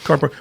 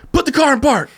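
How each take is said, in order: First: Said in the usual way. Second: High-pitched mock-furious command; hammed-up irate order; imitating angrier guard. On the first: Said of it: "I didn't take him serious, but I wasn't disrespectful". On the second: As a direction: mimic a guard losing his temper. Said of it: "he would get more mad".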